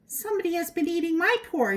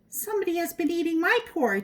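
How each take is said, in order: First: It is said in a middle-sized voice. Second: It is said in a middle-sized voice.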